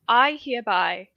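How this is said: It is said in a British accent. The speaker calls it right. "British accent"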